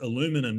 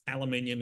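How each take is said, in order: First: It is said in the American way. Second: It is said in the Australian way.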